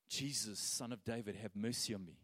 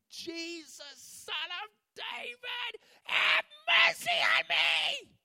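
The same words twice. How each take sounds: First: It is said calmly at normal volume. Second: It is said loudly, like a desperate shout.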